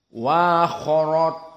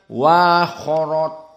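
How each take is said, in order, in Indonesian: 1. Hamzah dilunakkan dan diringankan. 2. Hamzah dilunakkan dan diringankan.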